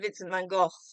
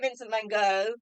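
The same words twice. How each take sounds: First: The surname is said the British way. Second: The surname is said the American way. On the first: "we say Vincent van Gogh, properly speaking" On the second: "As you say in America, you say"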